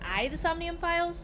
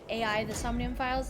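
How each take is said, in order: First: AI is spoken as the single word eye. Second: AI is spoken as two separate letter names. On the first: The speaker calls it right. "instead of I the Somnium Files" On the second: The speaker calls it wrong. "I kept calling it A I the Somnium Files"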